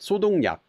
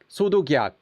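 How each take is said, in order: First: An n sound links into the last syllable. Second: A g sound links into the last syllable. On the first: The speaker calls it right. "So you get sodong nyak is what you get" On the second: The speaker calls it wrong. "it just sounds really weird"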